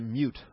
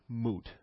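First: The vowel begins with a 'y' glide, 'myoot'. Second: The vowel is plain 'oo' with no glide. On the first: This is the common everyday pronunciation. "I used to pronounce it mute all the time" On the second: This is the pronunciation kept to honor a friend. "the proper pronunciation is moot"

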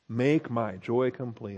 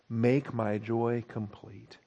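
First: It is said in his normal voice. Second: It is said in a Dirty Harry impression.

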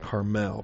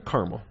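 First: The stress is on the second syllable. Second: The stress is on the first syllable. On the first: The speaker calls it wrong. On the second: The speaker calls it right. "No, Carmel. I think it's a first syllable accent"

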